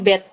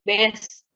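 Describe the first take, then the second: First: The syllable ends with a t sound. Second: The syllable ends with an s sound. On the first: The speaker calls it right. "bunyinya bukan S tapi T. Dibacanya bet" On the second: The speaker calls it wrong. "Kalau pelafalan biasanya kan pasti bes"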